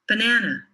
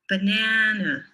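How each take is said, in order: First: The word is said at normal speed. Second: The word is said slowly.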